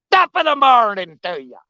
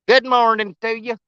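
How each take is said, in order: First: A lightly done Irish accent, sliding toward pirate. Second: Said in the usual way. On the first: Shown as a demonstration. Greeting a friend on the bank, mild Irish accent. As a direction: try an Irish brogue, ham it gently. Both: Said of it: "Every time I try to do my Irish accent".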